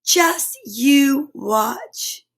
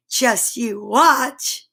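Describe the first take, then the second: First: Stretched out slowly; very slow, drawn out. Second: Slow and sly. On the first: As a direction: take your time, teasing. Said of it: "said Kip". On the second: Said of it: "said the cats". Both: Acted.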